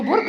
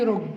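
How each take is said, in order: First: Said in the usual way. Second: رج, the initial b of برج dropped; sound omission. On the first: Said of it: "أنا قلت له برج". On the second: Shown as a demonstration. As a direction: say رج with no b at the start. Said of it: "الحرف الباء أصلًا ما اتقالش".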